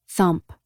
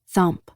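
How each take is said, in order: Both takes have the same delivery.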